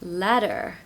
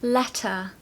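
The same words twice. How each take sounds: First: The middle T sounds like a D. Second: The middle T is a clear, soft T. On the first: "in the American accent, the T is more like a D" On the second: "the T in the middle of words is very pronounced"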